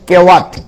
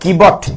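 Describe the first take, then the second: First: The middle consonant is a 'w' sound. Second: The middle consonant is a 'b' sound. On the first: This is the form found in the online spelling. "গুগলে চার্জ করলে বানানটা হচ্ছে কেওয়াট" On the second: This is the form used in the scriptures. "ডব্লিউ কে বব উচ্চারণ করে আর কি"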